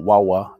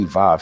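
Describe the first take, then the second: First: The letter name starts with a W sound. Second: The letter name starts with a V sound. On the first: The speaker calls it right. "It's Yad Ha, uh, Wawa" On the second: The speaker calls it wrong. "they say Yod Hey Vav Hey, but it's not"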